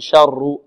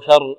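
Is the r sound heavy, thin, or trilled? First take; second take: trilled; thin. First: The r is trilled several times. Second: The r is thin and light. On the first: "لا نقول شر، شر تكرر" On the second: "شر مرقة الراء"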